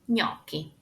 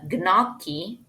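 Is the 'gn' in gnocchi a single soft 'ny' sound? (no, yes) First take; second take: yes; no. First: The gn is one soft ny sound. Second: The gn is not one soft ny sound. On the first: The speaker calls it right. "G combined with N is N" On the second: The speaker calls it wrong. "that's wrong"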